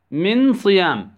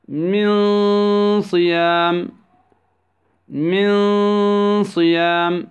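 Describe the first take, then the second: First: Said in the usual way. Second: من صيام with the n drawn out as a hum; ikhfa with ghunnah. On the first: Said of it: "كيف ننطقها؟". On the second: Shown as a demonstration. Tajweed teacher models the rule, long humming ikhfa in من صيام. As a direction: hold a half-hidden nasal noon before صيام in من صيام. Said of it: "في حالة بين الإدغام والإظهار".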